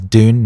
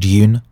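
First: The word is said with an American pronunciation. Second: The word is said with a non-American pronunciation. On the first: "She says Dune, ... because she's American" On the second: "not Dune"

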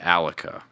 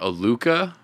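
First: It sounds like Metallica without the Met. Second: It is read as spelled, unlike Metallica's ending. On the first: The speaker calls it right. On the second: The speaker calls it wrong.

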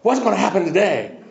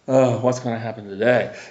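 First: It sounds eager and excited. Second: It sounds weary and dreading.

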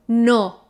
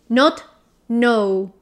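First: The O vowel is short and sharp. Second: The O vowel is long and rounded. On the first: The speaker calls it right. "Sharp and short" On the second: The speaker calls it wrong. "We don't round the mouth like in no"

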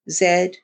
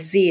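First: The letter is said the non-American way, 'zed'. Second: The letter is said the American way, 'zee'.

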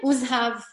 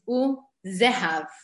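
First: The z and h run together without a vowel. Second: A short vowel separates the z and h. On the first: The speaker calls it wrong. "we would read it as a sheva nach" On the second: The speaker calls it right. "the proper reading is uzehav"

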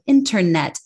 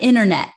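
First: The middle T is clear and crisp. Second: The middle T is dropped. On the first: The speaker calls it right. "just like internet" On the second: The speaker calls it wrong. "not internet"

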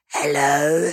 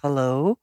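First: It sounds weird and creepy. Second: It sounds like a natural human voice.

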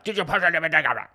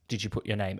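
First: It is yelled loudly. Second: It is said calmly and quietly.

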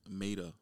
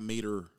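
First: The first syllable sounds like 'may'. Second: The first syllable does not sound like 'may'. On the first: The speaker calls it right. "Like May, T-A at the end" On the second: The speaker calls it wrong. "Not Mater"

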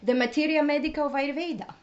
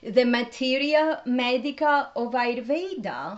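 First: It is said at normal speed. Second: It is said slowly.

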